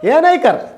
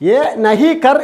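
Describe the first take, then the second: First: The negative word is reduced to nai. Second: The negative word is pronounced in full as nahi. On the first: The speaker calls it right. "പറയുമ്പോൾ ഏ നൈക്കർ" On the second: The speaker calls it wrong. "ഏ നഹി കർ എന്ന് എഴുതും"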